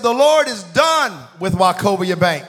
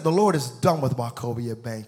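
First: Loud, slow, raised proclamation; booming re-enacted prophecy; prophetic declaration. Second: Said in the usual way. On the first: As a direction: pronounce judgment slowly and forcefully. Imitating preacher's prophetic declaration.

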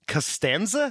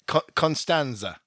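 First: "Costanza" said ka-STAN-za with rising question; "Costanza" with a short unstressed first syllable, rising; questioned name. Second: "Constanza" said kon-STAN-za, with an n; "Constanza" stated with a clear n before the s; corrected name. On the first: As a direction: say "Costanza" higher, as a query. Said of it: "let's just clear this up". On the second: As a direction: say "Constanza" falling, first syllable sounded as "con". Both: Shown as a demonstration.

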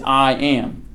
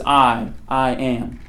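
First: Said in the usual way. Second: "I, I am." said slowly, leaning hard on the repeated "I"; stress on I. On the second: Shown as a demonstration. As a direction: weigh down each "I" before "am". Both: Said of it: "puts the emphasis on himself, on the I".

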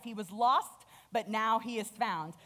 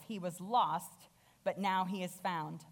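First: A little louder, ringing out the news; joyful father. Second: Compassionate father. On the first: Father proclaiming his son's return, joyful. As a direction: announce it gladly to the house. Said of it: "So he's like". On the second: Father gently reassuring his jealous older son. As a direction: ease it out tenderly to the older son. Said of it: "again with compassion". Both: Acted.

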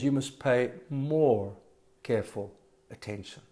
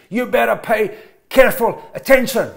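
First: Gentle reminder. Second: Louder, higher stern command; blunt warning. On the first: Preacher contrasting scripture's wording with a blunt order, soft gentle urging. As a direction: ease off into a gentle appeal. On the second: Preacher contrasting a blunt order with scripture, stern loud command. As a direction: bark the warning at the congregation. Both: Shown as a demonstration.

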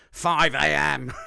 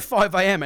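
First: Put-on slow, loud botched Scottish accent; drawn-out, unconvincing Scottish impression; failed Scottish accent. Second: Put-on louder, higher second stab at a Scottish accent; big, loud Scottish impression; retried Scottish accent. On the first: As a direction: have a bad go at dad's Scottish accent. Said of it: "in his Scottish accent". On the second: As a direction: imitate dad in Scottish, with more force. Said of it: "I'm gonna do it".

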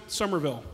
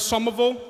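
First: Said in the usual way. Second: Boston "Somerville" with the R dropped; Boston accent. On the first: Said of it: "the way it's actually pronounced". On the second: Shown as a demonstration. Comic naming mom's home town, Boston-accented "Somerville". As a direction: say "Somerville" as Summa-vull, Boston style. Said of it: "We pronounce it Somerville".

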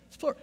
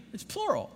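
First: Plural pushed up high; stress on plural. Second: Said in the usual way. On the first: Shown as a demonstration. Pastor to congregation, stressing plural. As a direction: lean hard on plural.

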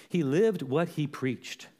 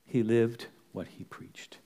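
First: Slow, measured statement; slow emphasis. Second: Slow, lowered, sober delivery; hushed solemn repeat. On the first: Preacher tells the church how Paul lived, deliberate. First take of a repeated line. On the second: Preacher lets the apostle's example sink in, solemn and slow. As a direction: let it sink in, low and slow. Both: Real, not acted.

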